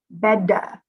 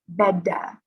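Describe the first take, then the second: No difference in how they are said.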